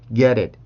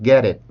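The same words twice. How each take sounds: First: The t is a soft, quick flap. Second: The t is a tense, hard stop. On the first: The speaker calls it right. "이런 식으로 발음을 합니다" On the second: The speaker calls it wrong. "이라고 소리 내지 않고"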